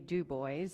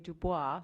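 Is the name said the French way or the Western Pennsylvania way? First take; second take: Western Pennsylvania; French. First: The name is said with a Western Pennsylvania pronunciation. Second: The name is said with a French pronunciation. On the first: "if you're from Western Pennsylvania, you would say" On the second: "if you have a French accent, you would say"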